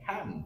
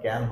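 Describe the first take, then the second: First: The first k sound has a puff of air. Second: The first k sound has no puff of air. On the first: The speaker calls it right. "Sound হবে খ্যান" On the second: The speaker calls it wrong. "এটাকে আমরা বলতাম ক্যান, but ক্যান হচ্ছে না"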